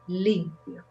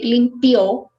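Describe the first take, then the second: First: The stress is on the first syllable. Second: The stress is on the last syllable. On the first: It means clean. "So the accent is in the first syllable" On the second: It means he or she cleaned. "if you put the accent in the end, it sounds like the verb limpiar in past"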